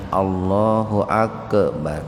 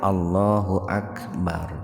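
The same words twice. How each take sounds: First: The k in akbar is bounced with an echo. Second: The k in akbar is plain, without a bounce. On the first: The speaker calls it wrong. "Kemudian kapnya jangan dipantulkan ... itu salah itu" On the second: The speaker calls it right. "Kayak takbir, Pak"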